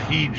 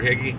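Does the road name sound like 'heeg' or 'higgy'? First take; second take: heeg; higgy. First: The name is said like 'heeg'. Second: The name is said like 'higgy'. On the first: This is how the navigation voice says it. "She's gonna say Heege Road" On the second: This is how the locals say it. "everybody here is for ever and ever has pronounced it Higgy"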